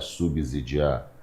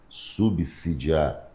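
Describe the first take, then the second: First: The middle s is sounded like z. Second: The middle s is sounded like s. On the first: The speaker calls it wrong. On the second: The speaker calls it right.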